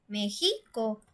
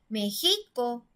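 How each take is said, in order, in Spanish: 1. La tónica está en la sílaba del medio. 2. La tónica está en la sílaba del medio.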